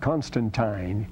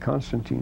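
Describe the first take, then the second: First: The name's ending is pronounced the English way. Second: The name's ending is not pronounced the English way. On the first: It is considered the proper choice. The speaker calls it right. "He said Constantine because it's I-N-E. You pronounce it like English" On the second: It is considered bad taste. The speaker calls it wrong. "He would never say Constantine. That would be considered bad taste"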